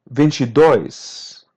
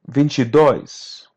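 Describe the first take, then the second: The two takes are said the same way.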